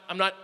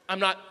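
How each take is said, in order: Both takes have the same delivery.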